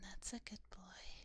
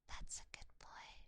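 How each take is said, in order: First: It is said in a deeper voice. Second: It is said in a normal voice.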